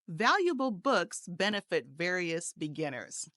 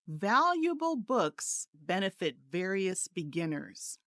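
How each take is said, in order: First: The sentence is spoken faster. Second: The sentence is spoken slowly. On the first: "a little faster this time" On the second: "I'll say each one slowly"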